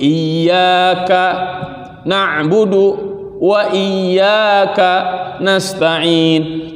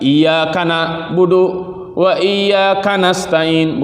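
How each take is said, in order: First: The y in iyyaka is held doubled. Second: The y is single; ka joins the next word. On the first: The speaker calls it right. "Ada tasydid di situ" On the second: The speaker calls it wrong. "seolah-olah ka-nya masuk ke na'budu dan ke nasta'in"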